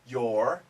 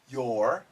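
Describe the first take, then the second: The two takes are said the same way.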